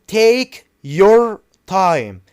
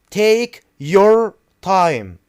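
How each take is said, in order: The two takes are said the same way.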